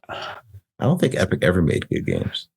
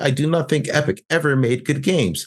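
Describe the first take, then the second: First: It is said at normal volume. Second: It is said loudly.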